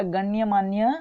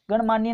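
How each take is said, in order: First: गण्यमान्य as ganya-maanya. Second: गणमान्य as gan-maanya; "gan" straight into "maanya" in गणमान्य; gan without ya. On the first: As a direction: sound the ya after "gan" in गण्यमान्य. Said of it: "शुद्ध शब्द है". (गण्यमान्य में दोनों "य" बोलें) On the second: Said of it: "गणमान्य नहीं होता". (गणमान्य में "गण" बिना य के) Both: Shown as a demonstration.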